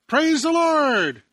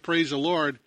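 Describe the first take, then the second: First: Loud, high, drawn-out joyful cry; joyful shout. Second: Said in the usual way. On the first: Acted. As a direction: shout it out to the whole street with a big smile. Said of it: "she'd just shout out with a big smile". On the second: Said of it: "And after she said".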